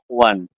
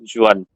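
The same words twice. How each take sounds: First: The name starts with an H sound. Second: The name starts with a J sound. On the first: "But in Spanish, they call it like ... their J sounds like ha" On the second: "if we go with the normal Indian English, so we should call it as"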